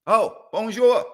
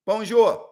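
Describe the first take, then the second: First: High, slow, louder call to the cat; sing-song bonjour. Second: Calling the cat. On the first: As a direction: draw out bonjour to coax the cat. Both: Pretend. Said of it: "how many languages we got".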